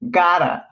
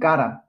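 First: It is said in an American accent, like gara. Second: It is said in a British accent. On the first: "下手なアメリカ英語だと、ガラなんですよね" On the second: "イギリス英語だと"

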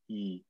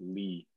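First: The name begins with a vowel, no L. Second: The name begins with an L sound. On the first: The speaker calls it right. "We say E without the L" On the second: The speaker calls it wrong. "we don't pronounce it Lee"

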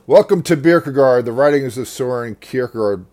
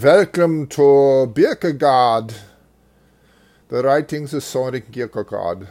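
First: It is spoken in the speaker's plain accent. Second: It is spoken in an imitated German-like accent.

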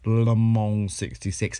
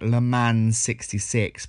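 First: Le Mans is said in a French way. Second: Le Mans is said in a plain English way. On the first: The speaker calls it right. "but actually it's" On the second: The speaker calls it wrong. "I was pronouncing it"

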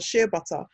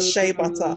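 First: It is said in a non-American accent. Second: It is said in an American accent.

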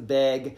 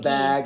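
First: The vowel is raised toward an 'eh' sound. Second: The vowel is the usual flat 'a' sound. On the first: "Are you talking about like the to the eh?"

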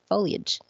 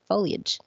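First: The word sounds like fo-li-age, in three syllables. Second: The same.

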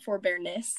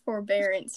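First: The word ends with a 'ness' sound. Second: The word ends with an 'ance' sound. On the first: The speaker calls it wrong. "not forbearness" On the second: The speaker calls it right. "Forbearance, not forbearness"

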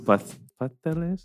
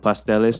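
First: The s sound is lisped like th. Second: The s sound is pronounced as a plain s. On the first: "they have the lisp" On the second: "from pasteles"

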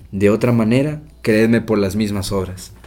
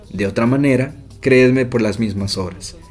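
No difference in how they are said.

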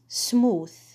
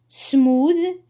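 First: The th sound is voiceless. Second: The th sound is voiced. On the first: The speaker calls it wrong. "before I confused between voiceless TH and voiced TH" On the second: The speaker calls it right. "Voiced TH at the end of the word"

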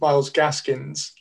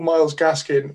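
First: The surname ends with an added s sound. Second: The surname ends without an s sound. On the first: The speaker calls it wrong. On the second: The speaker calls it right.

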